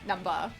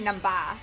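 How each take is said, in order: First: The word ends in a short weak 'uh' vowel. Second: The word ends in a broad open 'ah' vowel. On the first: The speaker calls it right. "not not" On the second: The speaker calls it wrong. "Some people spell uh, number with an A, ... Because then it would be numba"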